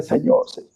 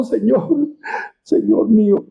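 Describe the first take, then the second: First: Said in the usual way. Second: Mildly acted weeping appeal; acted tearful plea. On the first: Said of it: "déjenme significar aquello". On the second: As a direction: plead as if in tears, understated.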